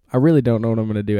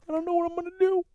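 First: Said in the usual way. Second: Very high, soft, squeaky fake wail; hammed-up whimpering despair; mock crying. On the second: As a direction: squeal it like a pretend crybaby. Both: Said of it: "I might cry today".

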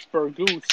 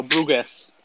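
First: Burgos said as plain Spanish Burgos; wrong pronunciation. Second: Brugues said with the r after the B; Brugues, carefully corrected; corrected pronunciation. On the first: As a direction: Burgos with the r before the u. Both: Real, not acted. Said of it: "No, Brugues".

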